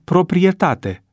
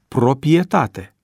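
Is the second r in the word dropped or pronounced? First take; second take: pronounced; dropped. First: The second r sound is pronounced. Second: The second r sound is dropped. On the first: The speaker calls it right. "Tot la fel este termenul proprietate" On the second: The speaker calls it wrong. "pe care unii îl pronunță proprietate"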